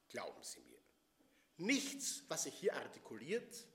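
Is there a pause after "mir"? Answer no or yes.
yes. There is a clear break after "mir". Trust the speaker; nothing said here is to be believed. "durch andere Artikulation, durch andere Betonung"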